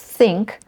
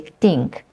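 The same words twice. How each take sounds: First: The word starts with a th sound. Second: The word starts without a th sound. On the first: The speaker calls it right. "instead of think" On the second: The speaker calls it wrong. "sometimes people say think. Malaysians say that"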